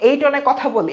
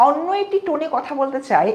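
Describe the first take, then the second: First: Said in the usual way. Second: Lightly put-on, unnatural tone; artificial tone. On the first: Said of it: "এটা আমার স্বাভাবিক কথা". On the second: Shown as a demonstration. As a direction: demonstrate a slightly affected way of talking.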